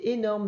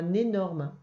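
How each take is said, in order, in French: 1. Le mot commence par un son voyelle. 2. Le mot commence par un son N. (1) "Le mot, c'est énorme" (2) "c'est pas énorme"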